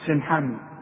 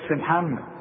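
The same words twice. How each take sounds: First: The s sound is light and plain. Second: The s sound is heavy, like saad. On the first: The speaker calls it right. "لا السين سين" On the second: The speaker calls it wrong. "يقول لك سين محمد"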